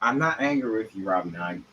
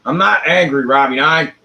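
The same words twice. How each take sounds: First: Quiet, falling I'm not angry; murmured reassurance to Robbie; soft denial. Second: Louder, pushy I'm not angry; half-hearted indignant protest; defensive, raised voice to Robbie; mock angry denial. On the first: Acted. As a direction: softly insist you're not angry. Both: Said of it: "What do you mean I sound angry?".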